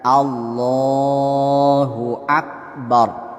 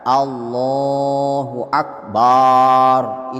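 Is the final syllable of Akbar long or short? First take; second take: short; long. First: The final syllable of Akbar is short. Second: The final syllable of Akbar is drawn out. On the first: The speaker calls it right. "Jadi pendek satu ketukan" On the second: The speaker calls it wrong. "Jangan dibaca ... Itu salah"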